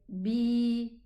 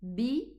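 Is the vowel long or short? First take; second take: long; short. First: The vowel is held twice as long. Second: The vowel is short. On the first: "extend the kasra pronunciation double the time" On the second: "instead of saying bi"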